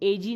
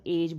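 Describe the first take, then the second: First: An extra vowel sound is said at the end. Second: The word ends without an extra vowel sound. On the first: The speaker calls it wrong. "एजी ई एजी नहीं बोलना है" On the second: The speaker calls it right. "हमें केवल एज बोलना है"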